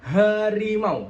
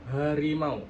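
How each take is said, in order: First: "harimau" slow and loud, H pushed out; H jelas. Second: "harimau" with a weak, slack H; H tidak jelas. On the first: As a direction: push the H of "harimau" from the chest. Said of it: "ngucapin H-nya dengan jelas". ("harimau" dengan H jelas dan ditekan) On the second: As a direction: say "harimau" without pushing the H. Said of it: "H-nya itu nggak jelas". ("harimau" dengan H kurang jelas) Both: Shown as a demonstration.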